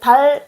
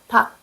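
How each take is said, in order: First: The word ends with an l sound. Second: The word ends with a k sound. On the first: The speaker calls it wrong. "달 아니요" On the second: The speaker calls it right. "닭 말해요. 그래서 first 아니요. second"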